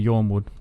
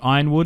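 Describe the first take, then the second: First: The name begins with the sound 'yorn'. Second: The name begins with the sound 'iron'. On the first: "You can read it as Yornwood" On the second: "I've always said iron because it's an iron gate"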